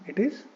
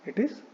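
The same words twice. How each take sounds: The two takes are said the same way.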